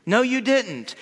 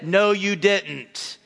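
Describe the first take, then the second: First: No, you didn't pitched up with a falling No; raised, punchy No, you didn't; higher emphatic denial. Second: No, you didn't said slowly, each word weighed out; slow, deliberate No, you didn't; slow flat denial. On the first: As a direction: snap back No, you didn't, higher and quicker. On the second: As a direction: drag out No, you didn't as a firm correction. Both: Shown as a demonstration. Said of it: "that's how we really said it".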